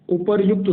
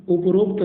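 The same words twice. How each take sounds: First: उपर्युक्त said clearly as u-par-yukt; correct form. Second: उपरोक्त said as u-prokt, marked as wrong; उपरोक्त read out as the wrong form. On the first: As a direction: stress each syllable of उपर्युक्त. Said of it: "उपर्युक्त शुद्ध होता है". (सही रूप उपर्युक्त, साफ़ उच्चारण) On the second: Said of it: "उपरोक्त नहीं होता". (गलत रूप उपरोक्त) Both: Shown as a demonstration.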